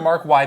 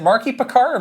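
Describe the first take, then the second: First: The first name ends with the letter name 'why'. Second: The first name ends in a short 'ee' sound. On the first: "or Mark Y" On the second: "Is it Marky Picard"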